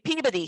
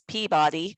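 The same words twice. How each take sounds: First: Peabody is said the local Boston way. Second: Peabody is said the general American way. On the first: The speaker calls it right. "is actually" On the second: The speaker calls it wrong. "what almost every other part of the country says"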